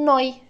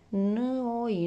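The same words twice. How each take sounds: First: The sounds are joined smoothly into one word. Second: Each sound is said separately, one by one. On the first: "îmi vine mai ușor dacă le citesc în gând și spun noi" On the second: "le citesc din ce în ce mai repede și încerc să le leg"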